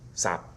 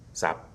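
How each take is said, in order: First: The vowel is cut short before the final consonant. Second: The vowel is cut short before the final consonant.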